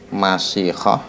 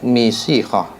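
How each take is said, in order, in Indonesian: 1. Vokal pertama adalah bunyi a. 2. Vokal pertama adalah bunyi i. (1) "bi fathil mim" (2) "wa kasriha"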